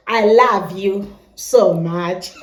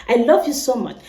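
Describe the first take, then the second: First: Slow Kenyan accent, "love" said "lav". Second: "I love you so much" in a Nigerian accent, love said "luv". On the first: Nigerian vlogger in Kenya imitating the local Kenyan accent. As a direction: draw it out slowly in a Kenyan accent. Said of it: "we say here". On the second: Nigerian vlogger showing fans her home accent. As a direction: Nigerian accent, plain and even. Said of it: "This is how we say it in Nigeria". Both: Shown as a demonstration.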